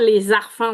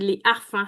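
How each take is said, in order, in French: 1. Le s de 'les' se lie au mot suivant. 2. Le s de 'les' ne se lie pas au mot suivant. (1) "on dit pas les arfans" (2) "C'est un H aspiré, donc il n'y a pas de liaison"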